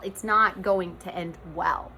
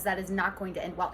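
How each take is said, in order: First: "not" leaned on, slow deliberate delivery; slow down and hit "not" firmly; stress on "not". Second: Said in the usual way. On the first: Real, not acted. Warning repeated slowly for emphasis.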